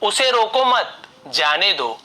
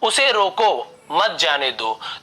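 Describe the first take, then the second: First: There is a short pause right after 'mat'. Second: There is a short pause right after 'roko'. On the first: Do not stop the person; let them leave. "अल्प विराम मत के बाद लगा हुआ है" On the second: Stop the person and do not let them leave. "अल्प विराम है तो यहाँ पे हम थोड़ा सा रुक रहे हैं"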